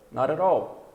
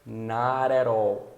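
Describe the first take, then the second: First: Not at all run together briskly, Ts tapped like R; flapped T, natural pace. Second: Not at all very drawn out, Ts tapped like R; flapped T, slow. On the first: Teacher models normal speech, not at all linked with taps. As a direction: link not at all into one flowing word. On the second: Teacher demonstrates linking, not at all slow and flapped. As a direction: stretch not at all, linking the words with taps. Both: Shown as a demonstration. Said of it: "então fica".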